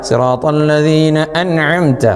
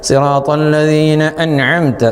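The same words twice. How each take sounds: No difference in how they are said.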